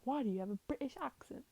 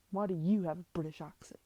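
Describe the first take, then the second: First: Higher-pitched, incredulous question; acted, high-pitched querying; puzzled challenge. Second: Louder, lower comeback, leaning on "you"; "you" hit hard and loud, pitch dropping after; retort stressing YOU. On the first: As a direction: question the other's accent, pitch lifting. Character challenges the other's put-on accent. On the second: Acted. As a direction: throw the question back with a punch on "you". Character throws the same question back.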